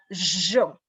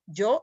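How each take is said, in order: First: The y sounds like sh, Río de la Plata style. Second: The y sounds like English y.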